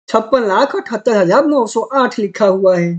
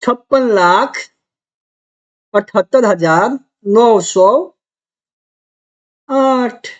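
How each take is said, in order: First: Said in the usual way. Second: Slow, with long pauses between place-value chunks; teacher breaking the number into pieces; read in chunks. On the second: Shown as a demonstration. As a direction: read each group of digits separately, pausing after each. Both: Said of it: "तो देखो कितना आसान है".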